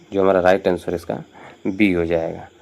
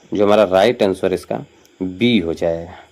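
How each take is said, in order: Both takes have the same delivery.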